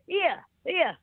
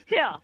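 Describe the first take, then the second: First: Higher-pitched Welsh "Here, here"; Welsh accent. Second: "Here" in the newly acquired accent; anglicised "Here". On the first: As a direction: say "Here, here" as in Wales, like "yeah". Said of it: "from Wales". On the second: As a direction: say "Here" the English way, not Welsh. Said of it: "never used to talk like that". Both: Shown as a demonstration.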